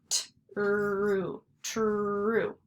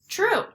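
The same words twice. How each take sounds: First: "T-ru, true" with sounds drawn out and joined; stretched blending. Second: Said in the usual way. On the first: Shown as a demonstration. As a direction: slide slowly from T through a held R into "oo" in "true". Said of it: "so it's gonna say U". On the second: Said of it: "That is true".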